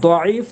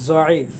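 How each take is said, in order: First: The first consonant is a heavy d sound. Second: The first consonant is a z sound. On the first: The speaker calls it right. "দদের উচ্চারণ" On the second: The speaker calls it wrong. "আমাদের এই অঞ্চলের মানুষ বেশিরভাগ জয়ের মতো বলে"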